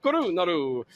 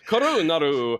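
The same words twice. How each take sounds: First: Korunaru again, mock Italian lilt; bad Italian accent. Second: Hammed-up Italian, rolled r in Korunaru; bad Italian accent. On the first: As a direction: play up Korunaru like a cartoon Italian. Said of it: "not an Italian you". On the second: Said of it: "a bad Italian accent". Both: Shown as a demonstration.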